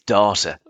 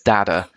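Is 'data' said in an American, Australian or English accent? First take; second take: Australian; American. First: The word is said in an Australian accent. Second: The word is said in an American accent. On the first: "if we've got any Aussies listening, it's data" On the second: "You're American, so it's data"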